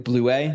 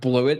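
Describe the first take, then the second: First: The name is given its French pronunciation. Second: The name is given its anglicized pronunciation. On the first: This is how the name is supposed to be said. The speaker calls it right. "That's technically my name in French" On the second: This is the usual everyday version of the name. The speaker calls it wrong. "not Bluet"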